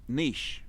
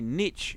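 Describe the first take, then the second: First: The word ends with a soft 'sh' sound. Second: The word ends with a hard 'ch' sound. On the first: The speaker calls it right. "The C and the H and the E go together to make an S S sort of sound" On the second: The speaker calls it wrong. "If you say niche, you're fucking idiots"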